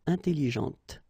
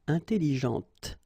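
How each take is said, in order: No difference in how they are said.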